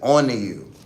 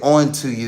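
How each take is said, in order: First: The T sound in 'to' is dropped. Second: The T sound in 'to' is clearly pronounced. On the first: The speaker calls it right. "You say on to you" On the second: The speaker calls it wrong. "you don't say on to you"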